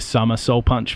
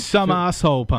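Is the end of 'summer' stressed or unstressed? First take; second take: unstressed; stressed. First: The end of summer carries no extra stress. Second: The end of summer carries heavy extra stress.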